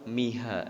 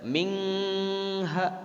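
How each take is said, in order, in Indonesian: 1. Bunyi n dihilangkan sama sekali. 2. Bunyi n kabur menjadi ng yang sengau. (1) "Tidak juga langsung miha" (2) "Tidak mingha"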